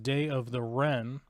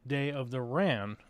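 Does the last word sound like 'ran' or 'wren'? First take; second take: wren; ran. First: The last word has the vowel of 'wren'. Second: The last word has the vowel of 'ran'.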